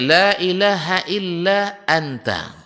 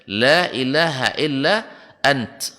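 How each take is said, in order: First: The last word ends with a vowel. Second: The last word ends on a consonant. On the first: The phrase is read on without stopping. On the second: The reader stops at the end of the phrase. "kalau wakaf dibaca"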